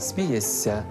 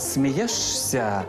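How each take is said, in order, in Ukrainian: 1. Перед -ся чується довгий звук 's'. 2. Перед -ся чітко чується звук 'sh'. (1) "а вимовляємо «смієшся»" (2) "Пишемо «смієшся»"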